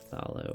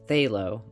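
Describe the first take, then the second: First: The word starts with a pronounced P sound. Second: The word starts with a TH sound, no P. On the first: The speaker calls it wrong. "Why am I saying Pathalo? ... because it has a P before it" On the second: The speaker calls it right. "but I know it's called Phthalo"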